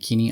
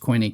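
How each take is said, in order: First: The word is said with a non-English pronunciation. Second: The word is said with an English pronunciation.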